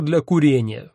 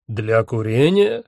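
First: Said in the usual way. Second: Slow, haughty query rising at the end; drawn-out, arrogant character voice; haughty echo question. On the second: A narrator's reading. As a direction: query it with lordly disbelief. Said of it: "надменно переспросил Один".

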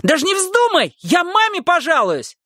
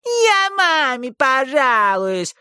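First: Put-on high, shrill boyish threat; shrill yell. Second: Slow, squeaky teasing mimicry; mock the boy in a squeaky voice. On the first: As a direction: shriek the threat at the maid. Boy yelling threat. (визгливый крик мальчишки) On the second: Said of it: "пискляво передразнила его Эсси Ли". (писклявое передразнивание)

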